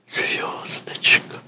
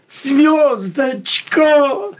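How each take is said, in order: First: It is said quietly, as if inwardly. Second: It is said loudly, proclaimed to the world.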